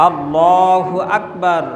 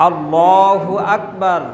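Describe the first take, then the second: Both takes have the same delivery.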